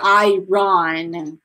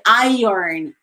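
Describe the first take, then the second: First: The word is said the way it is spelled. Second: The word is said with its sounds reshaped. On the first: The speaker calls it wrong. "You don't say irons, right? Or iron" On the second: The speaker calls it right. "You say iron, iron, iron. Like you kind of change the letters"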